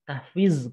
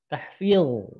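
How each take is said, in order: First: The final consonant is a plain z sound. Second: The final consonant is emphatic, tongue back raised. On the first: The speaker calls it wrong. "salah juga" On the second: The speaker calls it right. "Harusnya pakai huruf ini, dha ya. ... pangkal lidahnya angkat"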